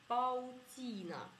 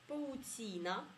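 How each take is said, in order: No difference in how they are said.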